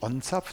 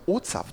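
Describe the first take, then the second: First: It is said with an n before the z. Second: It is said without an n before the z. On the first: The speaker calls it wrong. "man sagt nicht ONZAPT" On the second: The speaker calls it right. "Ich glaube OZAPT"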